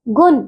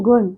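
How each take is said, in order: First: गुण ending in a dental "n", "gun"; mispronounced गुण. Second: Said in the usual way. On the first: Shown as a demonstration. Teacher shows pupils the error, dental n in गुण. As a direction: end गुण on न, not retroflex ण. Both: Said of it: "नहीं".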